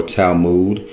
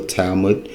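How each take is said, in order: First: "Talmud" with a long oo in the second syllable; alternate pronunciation. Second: Said in the usual way. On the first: Shown as a demonstration. Host offering another way to pronounce it, "Talmud" as Tal-mood. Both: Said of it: "depending on how you pronounce it".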